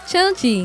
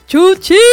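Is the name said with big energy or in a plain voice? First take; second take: plain; energetic. First: It is said in an ordinary, flat voice. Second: It is said loudly with lots of energy. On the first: The speaker calls it wrong. "It was my regular voice, like Chuchi" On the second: The speaker calls it right. "No, I go, Chuchi"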